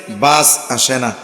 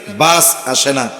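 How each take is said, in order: Both takes have the same delivery.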